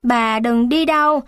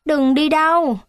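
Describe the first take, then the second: First: Said in the usual way. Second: Put-on higher, childlike pleading repeat of đừng đi đâu; a child's high plea đừng đi đâu. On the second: A narrator's reading. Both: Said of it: "Tôi chạy lại nắm chặt cánh tay bà".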